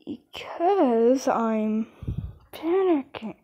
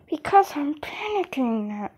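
First: Slow panicked answer. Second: Hushed urgent whisper; whispered confession of panic; panicked whisper. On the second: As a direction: breathe it out in a panic. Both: Real, not acted.

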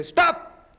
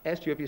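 First: Sudden high-pitched command; exclamation. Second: Said in the usual way. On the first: Shown as a demonstration. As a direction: call out "Stop" with an exclamation mark. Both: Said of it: "exclamation mark".

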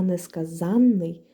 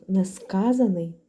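First: «несказанний» slowly, with a long held нн; double n. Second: «несказаний» slowly, with one short plain н; single n. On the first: Teacher showing students a slow, long doubled нн. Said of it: "дві літери «н»". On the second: Teacher showing students a slow, short single н. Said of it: "одна літера «н»". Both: Shown as a demonstration.

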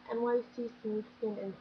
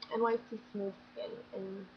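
The two takes are said the same way.

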